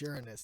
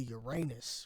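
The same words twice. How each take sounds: First: The word starts sounding like 'urine'. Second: The word ends sounding like 'your anus'. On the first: The speaker calls it right. "That's how it's pronounced, actually. we say urine" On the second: The speaker calls it wrong. "instead of saying anus"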